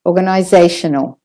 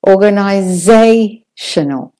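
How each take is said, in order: First: Said in the usual way. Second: Organizational slowly, ZAY drawn out; lengthened ZAY. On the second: Shown as a demonstration. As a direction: linger on "za" in "Organizational", then pause before "tional". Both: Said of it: "take a bit longer on that one".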